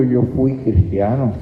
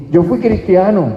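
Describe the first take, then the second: First: Mocking echo. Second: Proud boast. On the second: Retold or imitated. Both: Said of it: "y tú dices con orgullo".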